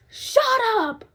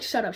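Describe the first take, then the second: First: Put-on high, sharp hushing old lady; old lady snapping. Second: Said in the usual way. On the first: Old lady hushing screaming patient, high and sharp. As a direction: snap at the screaming woman. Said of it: "she was like". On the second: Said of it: "No, she wasn't like".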